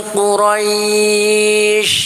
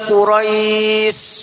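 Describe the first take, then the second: First: The final consonant is a breathy sh sound. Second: The final consonant is a thin s sound. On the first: The speaker calls it right. "yang dimainkan lidahnya ... anginnya itu banyak" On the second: The speaker calls it wrong. "Karena itu sin bukan shin"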